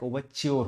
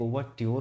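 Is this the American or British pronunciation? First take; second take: American; British. First: The middle sound is a 'ch' sound. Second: The middle sound is a clear 't' plus 'y'. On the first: "जो US का होता है वो च्योर होता है" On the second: "UK का जो pronunciation होता है वो ट्योर होता है"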